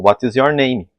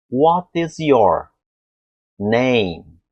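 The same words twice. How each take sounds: First: What is your name read syllable by syllable; What with an added i, name as "nemi"; spelling-led reading; Brazilian reading. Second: Slow, deliberate What is your; each word of what is your name drawn out; the slow articulation stage; slow form. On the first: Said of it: "o brasileiro vê a escrita e fala". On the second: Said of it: "Falam pra mim assim". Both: Shown as a demonstration.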